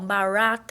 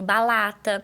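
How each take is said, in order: First: The r sound is distorted and unclear. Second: The r is replaced by an l sound. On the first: "Ou ela faz a distorção do som" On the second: "ela faz a troca do som, que geralmente é pelo L"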